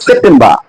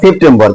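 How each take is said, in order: First: সেপ্টেম্বর ending in "-baa", no r; British pronunciation. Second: সেপ্টেম্বর ending in "-bor"; local Bengali pronunciation. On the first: Teacher showing how the British say it, British pronunciation. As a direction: drop the final r of সেপ্টেম্বর, "sep-tem-baa". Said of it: "ব্রিটিশরা বলে". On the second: Teacher showing what we all say, local pronunciation. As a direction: round the end of সেপ্টেম্বর to "-bor". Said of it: "এরা সবাই কি বলি". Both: Shown as a demonstration.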